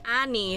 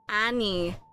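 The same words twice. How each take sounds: First: The word is said at a quick pace. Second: The word is said at a slower pace.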